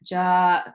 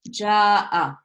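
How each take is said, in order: First: The word stops on the final glottal stop. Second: A short 'a' follows the final glottal stop. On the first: "there won't be any haraka on it because we're just stopping on it" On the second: "you could potentially pronounce it with a fatha"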